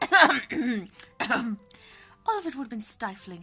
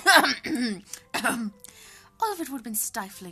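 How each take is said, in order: First: It is read in a put-on character voice. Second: It is read in a put-on character voice.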